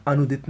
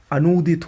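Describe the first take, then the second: First: अनुदित with short "nu"; wrong pronunciation. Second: अनूदित with long "noo"; correct pronunciation. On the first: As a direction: keep the middle vowel of अनुदित short. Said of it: "नहीं होता है". (अनुदित में छोटा "नु") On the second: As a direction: hold the middle vowel of अनूदित. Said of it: "होता है". (अनूदित में लंबा "नू") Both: Shown as a demonstration.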